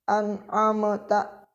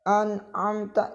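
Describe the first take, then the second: First: The m is released with a bouncing echo. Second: The m is held clearly without a bounce. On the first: The speaker calls it wrong. "jangan dipantulkan ... itu salah" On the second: The speaker calls it right. "mim juga harus dibaca jelas"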